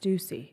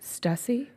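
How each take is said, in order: First: The first vowel is an 'oo' sound. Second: The first vowel is not an 'oo' sound. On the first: The two dots over the letter call for this sound. The speaker calls it right. "I think that means it's a ooh" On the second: This is how younger people say it. The speaker calls it wrong. "like the younger people, they're saying Stussy"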